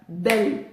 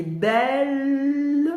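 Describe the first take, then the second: First: "Belle" brief, with a rising tune; "Belle" as a single quick beat; one short syllable. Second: "belle" held long on a higher L; "belle" rising into a long sustained L; prolonged syllable. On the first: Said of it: "une syllabe". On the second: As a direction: stretch the L at the end of "belle". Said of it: "qui se prolonge". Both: Shown as a demonstration.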